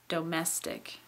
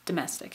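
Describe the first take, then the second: First: The first vowel is fully pronounced. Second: The first vowel is a quick, reduced schwa. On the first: "I can say the first vowel in the word domestic" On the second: "It's very quick, and it's that little tiny schwa"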